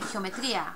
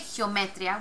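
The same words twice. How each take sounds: First: The stress falls on the syllable tri. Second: The stress falls on the syllable me. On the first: The speaker calls it right. "we say geometria" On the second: The speaker calls it wrong. "we don't say geometria"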